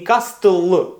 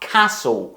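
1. Звук t вимовляється. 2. Звук t мовчить. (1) "Не castle" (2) "а castle. ... І пропускаємо ті"

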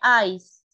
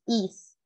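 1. La vocal es un diptongo, como 'eyes'. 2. La vocal es un sonido de i corta. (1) "Te escuché eyes" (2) "y es is"

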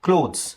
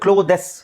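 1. ಕೊನೆಯ e ಮೌನವಾಗಿರುತ್ತದೆ, ಆದ್ದರಿಂದ ಒಂದೇ ಉಚ್ಚಾರಾಂಶ. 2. ಕೊನೆಯ e ಹೆಚ್ಚುವರಿ ಉಚ್ಚಾರಾಂಶವಾಗಿ ಹೇಳಲಾಗುತ್ತದೆ. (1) "ಇ ಈಸ್ ಸೈಲೆಂಟ್" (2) "ಏನೇ ಪ್ರೊನೌನ್ಸ್ ಮಾಡಿದ್ರೆ ಕ್ಲೋದೆಸ್"

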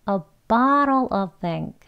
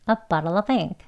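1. 이 구절은 천천히, 또박또박 말합니다. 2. 이 구절은 빠르고 자연스럽게 이어서 말합니다. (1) "천천히 두 번 할게요" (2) "빨리 하면"

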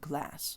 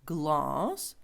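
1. Це плаский американський звук 'a'. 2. Це довгий відкритий британський звук 'ah'. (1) "американці це скажуть як" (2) "Довгий звук А"

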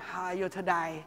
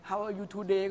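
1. today มีเสียงสระ 'eye' เหมือน 'to die' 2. today มีเสียงสระ 'ay' แบบมาตรฐาน

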